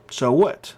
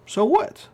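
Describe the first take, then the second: First: Said in the usual way. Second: Tossed-off so what pitched up high; scoffing so what. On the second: Real, not acted. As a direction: shrug it off, higher and sharper. Dismissive repeated question.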